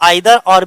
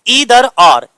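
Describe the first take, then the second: First: 'Either' begins with an 'eye' vowel sound. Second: 'Either' begins with an 'ee' vowel sound.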